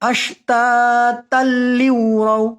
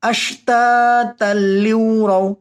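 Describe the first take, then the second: Both takes have the same delivery.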